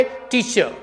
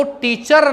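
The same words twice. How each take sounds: First: टीचर with silent final R; टीचर softer, ending on a vowel; correct pronunciation. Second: टीचर with sounded final R; टीचर in Indian pronunciation; wrong pronunciation. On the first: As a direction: say टीचर as "teacha". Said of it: "आप क्या बोलोगे?". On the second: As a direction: say टीचर with a rolled, clear R. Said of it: "टीचर ना बोल करके". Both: Shown as a demonstration.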